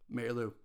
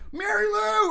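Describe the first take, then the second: First: It is said in a relaxed, chill way. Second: It is called out with panicky urgency.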